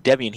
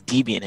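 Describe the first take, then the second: First: Said in the usual way. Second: Debian said DEE-bian; mimicked "Debian" as DEE-bee-an; imitated mispronunciation. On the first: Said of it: "instead of saying Debian". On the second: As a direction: give Debian a long EE in the first syllable. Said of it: "he says Debian".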